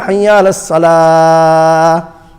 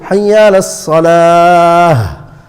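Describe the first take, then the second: First: Salah ends without any final h sound. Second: Salah ends with an audible h sound. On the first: The word does not mean the prayer. The speaker calls it wrong. "If you just leave it" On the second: The word means the prayer. The speaker calls it right. "Ha needs to come out"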